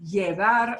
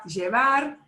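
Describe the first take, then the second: First: "llevar" as yeh-VAR; y-sound pronunciation. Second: "llevar" as jeh-VAR; j-sound pronunciation. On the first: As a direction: open "llevar" with a gliding y. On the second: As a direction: open "llevar" with a firm j sound. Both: Shown as a demonstration. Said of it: "are both acceptable".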